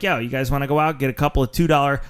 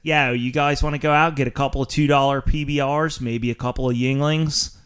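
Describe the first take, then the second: First: Said in the usual way. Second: Light Philly accent, yo flattened to yah; a hint of South Philadelphia bar talk. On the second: Shown as a demonstration. Host redoes his call to friends in light Philly accent. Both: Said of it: "I'll do it in my Philly accent".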